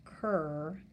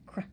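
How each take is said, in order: First: An extra 'er' vowel follows the cr blend. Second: The cr blend is clipped short with no vowel. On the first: The speaker calls it wrong. "add an er sound" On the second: The speaker calls it right. "clip that R sound and say oh, very quickly"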